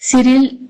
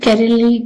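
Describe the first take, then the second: First: The name begins with a soft S sound. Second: The name begins with a hard K sound. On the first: The speaker calls it right. "सिरिल is the correct pronunciation according to me" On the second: The speaker calls it wrong. "कैरली की जगह पे"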